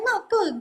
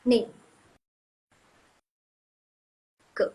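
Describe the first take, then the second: First: The first syllable is said as 'na'. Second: The first syllable is said as 'nei'. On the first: The speaker sounds less fluent but is still understood. "kalau kita nggak pandai terus kita bacanya nake, bisa nggak? Tenang, bisa kok" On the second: The speaker sounds like a fluent native speaker. "kalau misalnya kalian mau kedengaran kayak pro banget bahasa Mandarin kalian, kalian bacanya nei ke"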